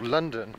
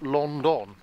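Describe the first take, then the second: First: The first vowel sounds like 'lun'. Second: The first vowel sounds like 'lon'. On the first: The speaker calls it right. "think about how you pronounce" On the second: The speaker calls it wrong. "it's not London"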